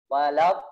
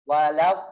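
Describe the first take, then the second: No difference in how they are said.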